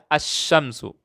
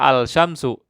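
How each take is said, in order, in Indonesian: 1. Huruf l tidak dibaca dan bunyi sh dibaca ganda. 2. Huruf l dibaca sebelum bunyi sh. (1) "tapi saya baca asy-syamsu. Ada tasdidnya" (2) "Saya tidak baca al-syamsu"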